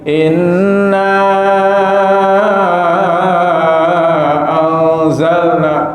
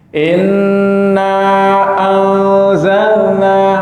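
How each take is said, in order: First: The elongated vowel is drawn out much longer. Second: The elongated vowel is held only briefly. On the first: "atau lebih panjang lagi" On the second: "boleh dibaca dua harokat"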